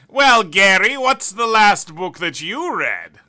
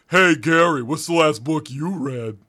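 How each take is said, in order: First: It is said in a put-on smart voice. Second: It is said in a dumb, oafish voice.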